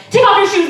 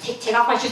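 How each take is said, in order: First: High, loud mock security order; barking TSA agent. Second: Stammered echo at normal pitch; flustered compliance. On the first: Airport agent ordering travelers in line, mock barking. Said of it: "you know how they're like". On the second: Retold or imitated. Teen traveler obeying the security agent, flustered echo. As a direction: repeat the order to yourself, obediently.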